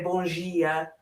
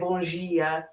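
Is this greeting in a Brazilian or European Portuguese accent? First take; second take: Brazilian; Brazilian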